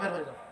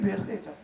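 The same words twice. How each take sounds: First: It is said in a sharp, scolding voice. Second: It is said gently and affectionately. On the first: The speaker is rebuking the listener. The speaker calls it right. "একটু ধমকের স্বরেই বলছেন" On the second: The speaker feels tenderness toward the listener. The speaker calls it wrong. "আদর করে"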